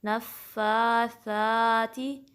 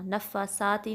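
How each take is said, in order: First: نفاساتی very slow, soft th and long vowels. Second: نفاساتی quick, with s in place of th; wrong demo, hissed s and short vowels in نفاساتی; wrong seen sound. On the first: Teacher correcting gently, stretched نفاساتی with soft th. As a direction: press ff in نفاساتی, tongue-tip th for s. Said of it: "نرمی سے ادا کرنا ہے". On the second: Teacher showing the mistake, نفاساتی with hissed s. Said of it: "نفاساتی نہیں". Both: Shown as a demonstration.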